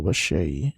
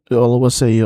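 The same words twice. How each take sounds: First: Oluwaseyi ending in "shay"; sh pronunciation. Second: Oluwaseyi ending in "say"; s pronunciation. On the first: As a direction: pronounce Oluwaseyi with sh before the last vowel. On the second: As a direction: pronounce Oluwaseyi with a clean s before the last vowel. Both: Shown as a demonstration. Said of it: "Is it Oluwaseyi or Oluwaseyi?".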